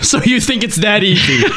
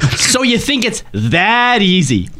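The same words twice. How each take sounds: First: It is read in a plain tone. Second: It is read dripping with sarcasm.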